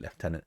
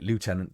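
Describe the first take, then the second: First: It is said with a British pronunciation. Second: It is said with an American pronunciation. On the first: This is how people here say it. "we call it Lieutenant" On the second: This is picked up from American films. "Most people call it Lieutenant because you watch American films"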